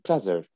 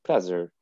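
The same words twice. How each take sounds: First: It is said with an American accent. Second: It is said with an American accent.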